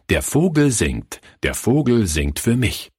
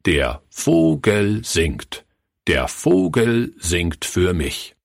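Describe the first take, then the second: First: Said in the usual way. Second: "Der Vogel singt. Der Vogel singt für mich." slow, word by word; dramatic pause before each word. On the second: A narrator's reading. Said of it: "mit einer wirkungsvollen Pause vor jedem Wort". („Der Vogel singt. Der Vogel singt für mich.“ langsam, Wort für Wort mit Pausen)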